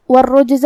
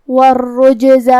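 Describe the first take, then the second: First: Said in the usual way. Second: والرجز chanted slowly, the j bounced; slow والرجز, shaking the silent jim loose; qalqalah on jim. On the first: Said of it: "کلمت والرجز میں". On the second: Shown as a demonstration. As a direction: recite والرجز with an echoing little bounce after the jim. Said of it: "جیم کو ہلاتے ہوئے یہ کلمہ کو پڑھیں گے".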